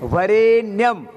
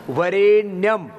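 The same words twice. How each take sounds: The two takes are said the same way.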